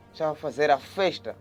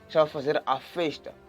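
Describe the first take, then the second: No difference in how they are said.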